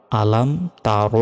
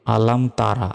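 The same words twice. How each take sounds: First: "তার" said slowly as "taa-ro", rounded ending; slow, measured "তার" ending in rounded "ro"; correct Quranic pronunciation. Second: "তারা" with a plain open "ra" ending; mistaken pronunciation. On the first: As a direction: round the final vowel of "তার" into a heavy "ro". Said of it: "এভাবে উচ্চারণ হবে". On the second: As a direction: end "তারা" on an open aa, not a rounded o. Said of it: "এখানে তারা হবে না". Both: Shown as a demonstration.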